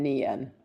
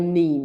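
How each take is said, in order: First: The syllable is said fully with two vowel sounds. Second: The syllable is said quickly as one clipped vowel. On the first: "and then Nian. Very simple" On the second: "if you really want to say it quickly"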